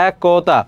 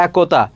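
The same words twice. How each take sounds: First: একতা with the first vowel drawn out as an open æ; open vowel shown. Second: Said in the usual way. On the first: Shown as a demonstration. Teacher showing students the vowel, একতা with a long open æ. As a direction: stretch the opening æ of একতা. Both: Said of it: "এর উচ্চারণটা এ এর মতো হচ্ছে".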